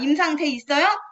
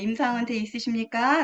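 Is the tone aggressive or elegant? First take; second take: aggressive; elegant. First: The question sounds aggressive and confrontational. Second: The question sounds graceful and elegant. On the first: The speaker is attacking the other product. The speaker calls it wrong. "이렇게 막 이렇게 공격적인 말투" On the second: The speaker is asking politely without attacking. The speaker calls it right. "우아하게 아주 엘레강스하게 똑같은 말이지만"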